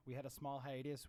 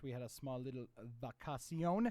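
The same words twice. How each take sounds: First: Said in the usual way. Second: "vacacion" said Spanish-style as vah-kah-see-OHN; mock Spanish word. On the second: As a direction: toss in "vacacion" with a jokey Spanish ring.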